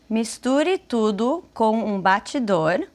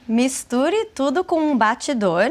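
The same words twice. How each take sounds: First: It is said slowly. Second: It is said at normal speed.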